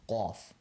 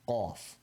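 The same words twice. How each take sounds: First: The first consonant is sharp and made far back. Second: The same.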